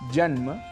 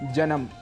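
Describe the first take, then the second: First: The final consonants are said together without vowel. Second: A vowel is inserted between the final consonants. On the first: The speaker calls it right. "इनके शुद्ध उच्चारण हैं" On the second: The speaker calls it wrong. "हम स्वरों को जोड़ भी देते हैं"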